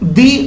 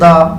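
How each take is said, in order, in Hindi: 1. स्वर एक लंबी 'ee' ध्वनि है। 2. स्वर एक छोटी 'uh' ध्वनि है। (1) "अर्थ के पहले हमने टी एच ई लगाया जिसको हमने दी पढ़ा" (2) "ब्लू के पहले टी एच ई लगाया तो इसको हमने दा पढ़ा"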